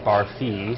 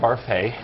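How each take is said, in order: First: The last syllable sounds like 'fee'. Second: The last syllable sounds like 'fay'. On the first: The speaker calls it wrong. "people in the show constantly mispronounce my name. They say Barfee" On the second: The speaker calls it right. "I play William Barfay"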